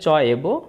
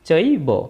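First: Two separate words are said with vowels apart. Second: One merged word is said with a joined vowel. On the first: The speaker calls it wrong. "এটা যদি আমরা ভাগ করে বলি তাহলে হবে চ এব" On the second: The speaker calls it right. "চ এব না বলে চৈবই বলবো"

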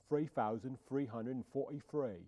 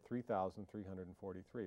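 First: It is said in a Cockney accent. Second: It is said in a plain, standard accent. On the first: "but you say it like this" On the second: "You say the word 3,343"

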